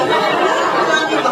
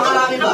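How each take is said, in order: First: Slow, laughing "Marami ba?" with a chuckle; laughing question. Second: Said in the usual way. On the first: Acted. Host teasing the audience, laughing. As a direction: draw out "Marami ba?" through laughter.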